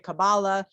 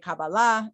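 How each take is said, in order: First: It is pronounced the US East Coast way. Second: It is pronounced the Israeli way. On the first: "in the East Coast, we say Kabbalah" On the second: "My Israeli friends say Kabbalah"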